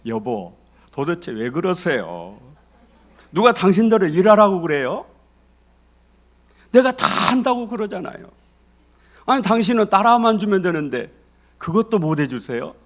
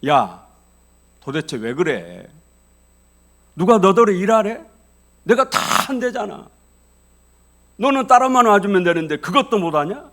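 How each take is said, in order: First: Loud, still-angry husband using honorifics; polite but heated. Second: Loud, furious outburst at his wife; angry husband yelling. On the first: Shown as a demonstration. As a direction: keep the anger but wrap it in polite speech. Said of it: "이거를 존칭으로 바꿔봅시다". (존댓말로 바꿨지만 여전히 큰 소리로 따지는 남편) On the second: Retold or imitated. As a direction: bark at her like a fed-up husband. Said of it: "남편이 화를 버럭 내면서". (화가 나서 아내에게 버럭 소리치는 남편)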